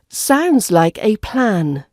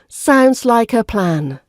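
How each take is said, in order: First: The word 'a' has a full strong vowel. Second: The word 'a' has a weak 'uh' vowel. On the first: The speaker calls it wrong. "we don't pronounce the A vowel as the strong vowel sound" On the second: The speaker calls it right. "we use the weak version, which sounds like uh"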